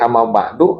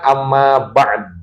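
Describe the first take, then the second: First: The phrase ends with a vowel after d. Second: The phrase ends on the consonant d. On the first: The speaker calls it wrong. "kalau salah" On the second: The speaker calls it right.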